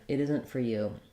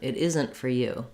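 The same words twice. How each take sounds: First: The word you carries the stress. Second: The word isn't carries the stress. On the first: "the you is the stressed word" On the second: "Or we might also stress isn't"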